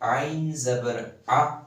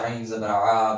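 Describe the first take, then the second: First: The final vowel is cut very short. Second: The final vowel is drawn out long. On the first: The speaker calls it right. "सिर्फ टच करके आपने फिर छोड़ना है" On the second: The speaker calls it wrong. "वो इनको लंबा पढ़ते हैं"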